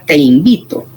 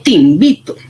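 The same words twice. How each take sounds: First: "te invito" con la e de "te" bien clara; te claro. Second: "te invito" dicho ti invito, unido y rápido; te reducido a ti. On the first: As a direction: dilo "te invito" con te completo. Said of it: "Ya no es ni siquiera". ("te invito" con te nítido y separado) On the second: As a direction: junta "te" con "invito" como ti-nvito. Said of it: "hasta decimos". ("te invito" pronunciado ti invito, todo ligado) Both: Shown as a demonstration.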